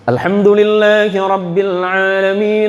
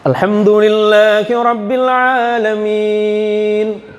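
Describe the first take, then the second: First: It is recited at a moderate, quicker pace. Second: It is recited slowly and deliberately. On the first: "tadwir, di pertengahan"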